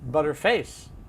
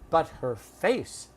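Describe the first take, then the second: First: The words run together into one reduced word. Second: Each word is said separately and clearly. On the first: The speaker calls it right. "we'd say butterface. That's how we pronounce it" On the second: The speaker calls it wrong. "We don't say"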